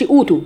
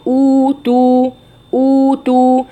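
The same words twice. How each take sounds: First: Short, quick أوتوا with no held vowels; مد ناقص. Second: Slow أوتوا with two equally long oo's; مد متساوٍ. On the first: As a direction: drop the length from both oo's of أوتوا. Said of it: "ما أقولش أوتوا". (أوتوا قصيرة بلا مد) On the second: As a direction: chant أوتوا, stretching both vowels evenly. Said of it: "الواو الأولانية قد الواو التانية". (أوتوا بواوين ممدودتين بالتساوي) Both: Shown as a demonstration.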